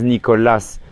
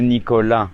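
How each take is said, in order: First: The name is pronounced with Spanish pronunciation. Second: The name is pronounced with French pronunciation. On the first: "the stress of the word was different" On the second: "like how you say it in French"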